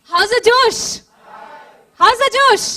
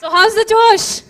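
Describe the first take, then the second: First: Building crowd shout; louder hype shout. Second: Shouted crowd call; rally the crowd loudly; loud hype call. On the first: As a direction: yell it louder each time. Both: Real, not acted. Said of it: "let me see how many of you are awake".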